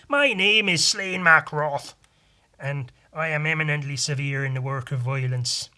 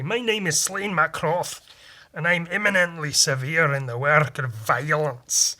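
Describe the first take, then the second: First: It is said in an Irish accent. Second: It is said in a Scottish accent.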